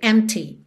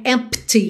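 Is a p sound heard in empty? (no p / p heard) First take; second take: no p; p heard. First: It goes straight from m to t, no p. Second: A p sound is made between m and t. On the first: The speaker calls it right. "Do M, você já vai direto para o T" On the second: The speaker calls it wrong. "não precisa se preocupar em dizer empty, em fazer esse som do P"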